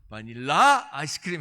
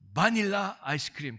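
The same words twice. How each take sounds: First: The stress is on the last syllable. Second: The stress is on the first syllable. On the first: "이거 끝에 있나 보다" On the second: "액센트를 좀 더 넣어가지고 해봐야 되겠다"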